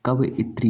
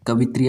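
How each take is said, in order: First: कवइत्री as slow "kav-i-tri"; correct split-vowel form. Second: कवित्री as "ka-vi-tri"; three syllables in कवित्री, no extra vowel; wrong run-together form. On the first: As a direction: break कवइत्री slowly before the "i". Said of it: "होता है". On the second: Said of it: "ऐसे नहीं लिखा जाता है". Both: Shown as a demonstration.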